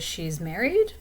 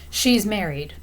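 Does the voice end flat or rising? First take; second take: rising; flat. First: The voice rises at the end. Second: The voice stays flat at the end. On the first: The speaker is unsure and is asking. "I'm trying to find that information out" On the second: The speaker is sure of it. "I sound like I'm really sure about that"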